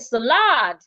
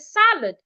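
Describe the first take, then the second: First: The stress is on the second syllable. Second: The stress is on the first syllable. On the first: The speaker calls it wrong. "or should I stress lad?" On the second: The speaker calls it right. "Should I stress sa"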